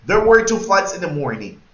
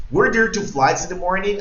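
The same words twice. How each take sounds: First: Said in the usual way. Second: Raised question tune, climbing to "morning"; question intonation. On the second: Shown as a demonstration. Teacher repeats the question model for the class, question intonation. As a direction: ask it, lifting the voice on "morning". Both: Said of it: "Dame la entonación de pregunta".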